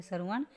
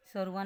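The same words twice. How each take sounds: First: श्रवण ending in retroflex ण. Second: श्रवण ending in dental न; plain n closing श्रवण; wrong N sound. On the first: Teacher gives the correction, श्रवण with retroflex ण. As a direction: curl the tongue back to close श्रवण. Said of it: "अणे आता है". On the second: Teacher shows the mistake, श्रवण with dental n. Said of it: "नहीं होता". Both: Shown as a demonstration.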